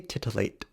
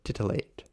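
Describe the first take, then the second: First: The T sounds are crisp and clearly articulated. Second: The T sounds are softened and not fully articulated. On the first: The talk is formal and professional. "But if I'm in a job setting" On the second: The talk is relaxed and intimate. "I might not really articulate my T's very well"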